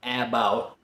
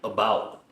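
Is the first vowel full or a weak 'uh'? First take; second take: full; weak. First: The first vowel is a full, clear vowel. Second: The first vowel is a weak 'uh' sound. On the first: The speaker calls it wrong. "I'm not saying about" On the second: The speaker calls it right. "I'm saying uh, uh, uh, about"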